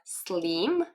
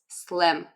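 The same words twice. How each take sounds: First: The vowel is long, like in 'seem'. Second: The vowel is short, like in 'sit'. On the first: The speaker calls it wrong. "it's not slim" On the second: The speaker calls it right. "it's slim, like this"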